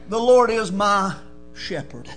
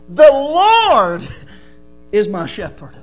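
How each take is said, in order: First: The stress falls on the word "shepherd". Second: The stress falls on the word "Lord".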